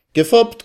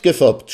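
First: Gefoppt yelled very high with a rising lilt; gleeful shout. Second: Gefoppt shouted higher, falling to close; gleeful shout. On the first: Salme Floh crows Gefoppt at the guests, high rising shout. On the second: Salme Floh finishes teasing the guests, loud falling gefoppt. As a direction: drop gefoppt down like a punchline. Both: A narrator's reading. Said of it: "schrie der Rätselsteller".

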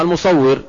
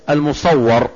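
First: المصور read as al-musawwir, with a short I before the final R; the active form المصور, ending "-wwir"; correct vowel. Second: المصور misread as al-musawwar, with an A before the final R; misreading المصور as the passive al-musawwar; mispronounced vowel. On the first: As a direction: say المصور with a kasra on the waw, "-wwir". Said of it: "أصلها". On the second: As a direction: say المصور with a fatha on the waw, "-wwar". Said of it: "هنا فرق حركة". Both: Shown as a demonstration.

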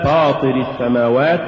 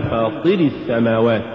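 First: Said in the usual way. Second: فاطر السماوات with too much stress on the ط; فاطر السماوات, accent shifted onto طِ; overstressed ta. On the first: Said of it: "الصواب". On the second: Shown as a demonstration. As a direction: punch the طِ in فاطر. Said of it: "زيادة نبرة الطاء".

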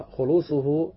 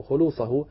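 First: خلوصه read khulūṣuhu, with u before the hu; nominative ending. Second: خلوصه read khulūṣahu, with a before the hu; accusative ending. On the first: Teacher offers first reading of the added condition, nominative ending on خلوصه. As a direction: say خلوصه as khu-LOO-su-hu. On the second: Teacher offers alternative reading after "or", accusative ending on خلوصه. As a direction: say خلوصه as khu-LOO-sa-hu. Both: Shown as a demonstration. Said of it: "أو خلوصه".

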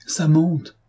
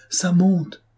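First: A choked, higher cry of panic; a hint of strangled terror. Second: Higher, choked cry falling off at the end; strangled scream of terror as the water climbs. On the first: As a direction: cry it out with a tight throat as the water rises. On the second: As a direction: force it out through a tight, panicked throat. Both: A narrator's reading. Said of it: "cria Gourel d'une voix étranglée".

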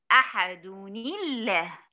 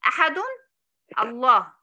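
First: أحد الله run together as "ahaduni-llah"; very slow, linking أحد to الله with "-ni"; joined with kasra. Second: أحد as "ahadun", pause, louder الله; incorrect unjoined reading. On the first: Teacher showing the correct joining, linked with kasra. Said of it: "هحركها بالكسر". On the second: Teacher showing what is not valid, incorrect unjoined reading. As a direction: break hard between "ahadun" and "Allah". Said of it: "لا يصح أن أقول". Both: Shown as a demonstration.

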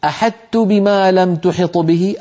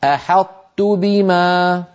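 First: "أحطت" with the ط turned fully into ت, a flat "أحت"; slow, the ط lost completely in "أحطت"; full assimilation demo. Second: "أحطت بما" said slowly, an unreleased ط kept emphatic and gliding into ت; the right way, "أحطت" with the emphasis of ط kept; correct partial assimilation. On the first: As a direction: show the wrong full merging of ط into ت in "أحطت". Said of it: "هل أقول". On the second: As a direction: keep the tongue flat for the ط of "أحطت", no bounce, then a light ت. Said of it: "وبسرعة تكون هكذا". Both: Shown as a demonstration.

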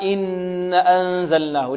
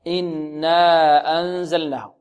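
First: Slow "إن أنزلناه", noon hummed long but alif dropped; faulty madd. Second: Slow "إنا أنزلناه" with hummed noon and full long alif; measured recitation, long aa in "إنا"; correct madd. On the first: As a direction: hold the nn of "إن", cut the following aa short. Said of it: "لعل البعض يقرأها". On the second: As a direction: hold the nn, then stretch the aa of "إنا" two counts. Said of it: "مد الألف بمقدار حركتين هكذا". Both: Shown as a demonstration.

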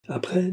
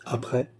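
First: "Après" pitched much higher, rising at the end; echoed word. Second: "Après?" as a short, understated question; prompting question. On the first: Baccarat takes up the baron's question, echoing it. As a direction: echo "Après" high, leaving it hanging. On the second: Baron asks what else she wants, prompting. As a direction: ask "Après?" evenly, waiting for the rest. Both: A narrator's reading.

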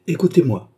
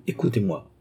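First: Raised, commanding call to listen; sharp call for silence; forceful command. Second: Calm command. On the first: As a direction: demand his attention, higher and louder. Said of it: "continua le docteur avec un geste". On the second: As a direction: soothe him into listening. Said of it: "un geste qui commandait le calme". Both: A narrator's reading.

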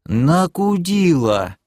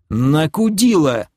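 First: Very slow, high, stretched word; parroted retort. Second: High, drawn-out annoyed answer; exasperated retort. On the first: Elf repeats it to the demoness, slow drawl. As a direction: draw out every syllable innocently. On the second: Answering the elf's silly question, exasperated. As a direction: toss it back in irritation. Narrator snaps at the elf. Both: Acted.

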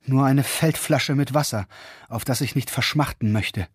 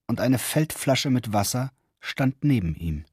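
First: „eine Feldflasche mit Wasser“ sehnsüchtig gedehnt, Ton fällt am Ende; erschöpft und durstig um Wasser bitten, „eine“ betont; lechzendes Flehen. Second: Said in the usual way. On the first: A narrator's reading. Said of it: "seufzte er lechzend". (lechzend, „nur eine Feldflasche mit Wasser“ flehend betont)

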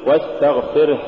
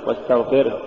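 First: واستغفره with the last h breathed out; released h closing واستغفره; audible final ha. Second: واستغفره with the last h cut off; swallowed final h in واستغفره; choked-off final ha. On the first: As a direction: let the h flow at the end of واستغفره. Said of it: "قل". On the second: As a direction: stop short at the end of واستغفره. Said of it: "ولا تقل". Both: Shown as a demonstration.

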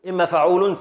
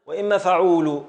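First: "فعول" with final -un fully sounded; complete form. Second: "فعول" left open on -u; nun dropped. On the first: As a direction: say "فعول" as fa-uu-lun. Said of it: "فعول تامة". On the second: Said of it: "بحذف هذه النو". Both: Shown as a demonstration.

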